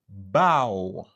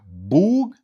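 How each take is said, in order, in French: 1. Le mot se termine par un son ow. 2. Le mot se termine par un son g. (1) "c'est ow" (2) "c'est pas boug"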